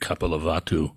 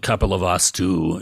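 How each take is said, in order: First: It is said in the softer Pali form. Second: It is said in the harder Sanskrit form. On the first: "is Pali" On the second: "is Sanskrit"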